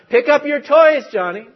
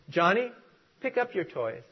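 First: It is said a little louder. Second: It is said softly.

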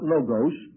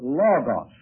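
First: The vowels do not sound like 'law-gaws'. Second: The word sounds like 'law-gaws'. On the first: The speaker calls it wrong. "not logos" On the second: The speaker calls it right. "but logos"

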